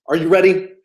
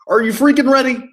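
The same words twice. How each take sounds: First: Said in the usual way. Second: Hype-up shout. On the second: Real, not acted. Coach pumps up his viewers, hyped and punchy. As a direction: punch freaking, higher and louder.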